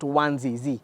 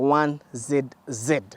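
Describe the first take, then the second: First: The letter Z is pronounced zee, American style. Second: The letter Z is pronounced zed, British style.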